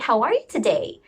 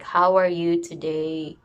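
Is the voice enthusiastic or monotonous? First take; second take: enthusiastic; monotonous. First: It is said in a lively, enthusiastic voice. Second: It is said in a flat, monotonous voice. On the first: The speaker is happy to meet the listener. The speaker calls it right. "that is one example of enthusiastically greeting" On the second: The speaker shows no real interest. The speaker calls it wrong. "sometimes our voice will become monotonous"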